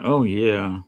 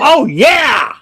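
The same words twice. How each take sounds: First: It is said flatly, without enthusiasm. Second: It is said with lively enthusiasm.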